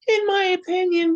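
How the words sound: It is said in a put-on imitating voice.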